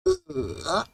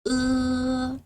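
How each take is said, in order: First: The syllable is said with the third tone. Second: The syllable is said with the first tone. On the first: "Third tone" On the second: "The first tone"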